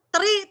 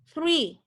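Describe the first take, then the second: First: It starts with a plain t sound. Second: It starts with a th sound. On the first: The speaker calls it wrong. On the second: The speaker calls it right.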